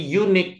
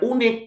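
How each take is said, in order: First: The word begins with a 'y' consonant sound. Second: The word begins with a plain vowel sound. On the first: The speaker calls it right. "kalau unik berarti juga harus pakai a" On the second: The speaker calls it wrong. "Ini bacanya bukan unik"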